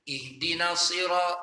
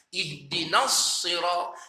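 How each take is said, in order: First: The s is short and light, not doubled. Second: The doubled s is held long and heavy. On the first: The speaker calls it wrong. "kita tak baca" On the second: The speaker calls it right. "kita tekan, kita berat ataupun kita keraskan bacaan"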